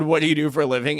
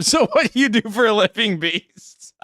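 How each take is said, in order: First: Said in the usual way. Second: High-pitched put-on host voice, dropping away on the last word; higher, mimicking question to a contestant; Tony Hinchcliffe impression. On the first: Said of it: "and then he said". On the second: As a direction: put on a comedy host grilling an act, pitched up. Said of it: "Tony Hinchcliffe".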